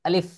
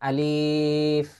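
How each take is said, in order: First: The word is said quickly and clipped. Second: The word is said slowly and drawn out. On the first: The speaker calls it right. "খুব দ্রুত ভাবে উচ্চারণ করতে হয়" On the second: The speaker calls it wrong. "আমরা আগে পড়তাম কি আলিফ বা, এরকম পড়তাম"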